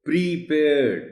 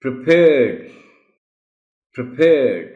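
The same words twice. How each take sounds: First: پریپیئرڈ with a long "ee" in the first syllable; mispronounced پریپیئرڈ. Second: پریپیئرڈ with a short schwa after "pr"; loud second syllable in پریپیئرڈ, first vowel short; correct پریپیئرڈ. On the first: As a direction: say پریپیئرڈ wrongly, as "pree-paired". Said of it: "یہ غلط ہے". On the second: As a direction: model پریپیئرڈ firmly as "pruh-PAIRED". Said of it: "اے sound ہے". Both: Shown as a demonstration.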